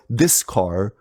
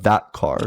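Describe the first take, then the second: First: "this" picked out before "car"; slow down and mark the word "this"; stress on this. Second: "that" picked out before "car"; stress on that. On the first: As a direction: lean on "this" to set up a contrast. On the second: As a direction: lean on "that" to complete the contrast. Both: Shown as a demonstration. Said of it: "that's going to be different".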